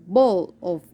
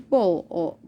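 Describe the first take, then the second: No difference in how they are said.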